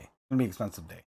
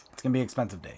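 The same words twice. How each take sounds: First: A dejected low echo of the line; low muttered aside. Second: Said in the usual way. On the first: Real, not acted. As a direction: lower and softer, said to himself. Repeats line, second as aside.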